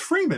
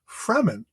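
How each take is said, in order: First: The name sounds like the words 'free men'. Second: The name does not sound like 'free men'. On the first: This is how the name was always heard in the head. The speaker calls it right. "no, it's Freeman. It's free men" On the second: This is how the film says it. The speaker calls it wrong. "they pronounce the tribe Fremen"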